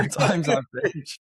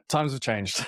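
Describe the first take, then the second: First: Laughing through the words, higher; real amused laugh on the words. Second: Said in the usual way. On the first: Real, not acted. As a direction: laugh as you repeat it. Repeats the phrase, then laughs.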